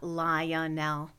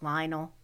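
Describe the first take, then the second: First: Lionel stretched to three syllables, LIE-o-nel; slow three-beat Lionel. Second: Lionel said in two syllables, LINE-el; short two-beat Lionel. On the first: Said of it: "it could be three syllables". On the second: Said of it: "but normally it's two". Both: Shown as a demonstration.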